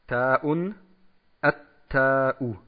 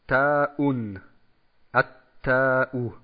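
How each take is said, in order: Both takes have the same delivery.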